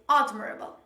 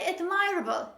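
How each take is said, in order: First: The stress is on the first syllable. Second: The stress is on the second syllable. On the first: The speaker calls it right. "the stress is at the beginning on the first syllable" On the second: The speaker calls it wrong. "Don't say admirable"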